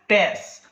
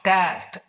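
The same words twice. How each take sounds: First: The final t sound is left off. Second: The final t sound is clearly pronounced. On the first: This is how one ethnic group says it. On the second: This is the standard way to say it.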